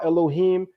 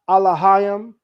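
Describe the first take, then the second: First: It begins with e, with vowels e, o, i. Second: It begins with a, with vowels a, a, a.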